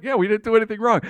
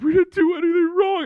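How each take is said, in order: First: Said in the usual way. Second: High-pitched tearful girlfriend imitation; mock crying. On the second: Girlfriend protesting innocence after being caught, mock crying. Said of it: "My girlfriend starts crying".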